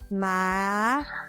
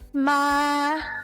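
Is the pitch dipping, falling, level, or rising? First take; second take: rising; level. First: The pitch rises from middle to high. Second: The pitch stays high and level.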